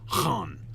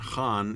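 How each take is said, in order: First: It begins with a throaty, rasping h sound. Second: It begins with a plain h sound. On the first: The speaker calls it right. "It's Han" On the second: The speaker calls it wrong. "It's not even Han"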